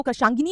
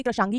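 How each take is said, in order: First: कृशांगिनी ending in "ginee"; कृशांगिनी with an extra nee syllable; wrong longer form. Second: कृशांगी ending in "gee"; कृशांगी with no nee syllable; correct shorter form. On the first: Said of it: "कृशांगिनी नहीं कहते". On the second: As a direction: say कृशांगी as "krishaangee". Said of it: "कृशांगी कहते हैं". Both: Shown as a demonstration.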